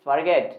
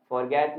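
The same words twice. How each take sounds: First: Forget as fer-GET, weak first vowel; correct pronunciation. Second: Forget as FOR-get with a full o; wrong pronunciation. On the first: Teacher correcting the spelling habit, correct pronunciation. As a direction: reduce the start of forget to a schwa. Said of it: "it's forget". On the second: Teacher saying what it is not, wrong pronunciation. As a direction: round first vowel and sounded r in forget. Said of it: "forget नहीं होता". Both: Shown as a demonstration.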